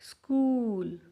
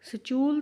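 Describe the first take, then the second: First: The s is followed by a k sound. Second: The s is followed by a ch sound. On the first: The speaker calls it right. "क की sound दे रहा है।" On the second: The speaker calls it wrong. "स्चूल तो नहीं है ना ये"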